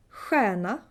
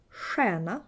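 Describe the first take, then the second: First: Stjärna opening on a back "hw" sound; stjärna with a southern throaty stj; southern Swedish ch. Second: Stjärna opening on "sh"; stjärna with a northern hushing stj; northern Swedish sh. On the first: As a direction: start stjärna as "hwairna". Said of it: "you would say ch". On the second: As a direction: start stjärna as "shairna". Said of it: "you would say sh". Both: Shown as a demonstration.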